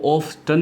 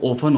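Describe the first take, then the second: First: The t sound is pronounced in the middle. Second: The t sound is left silent in the middle. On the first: The speaker calls it wrong. "वो ऑफ्टन नहीं होती है" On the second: The speaker calls it right. "इसमें जो ये टी है इसको हम साइलेंट रखते हैं"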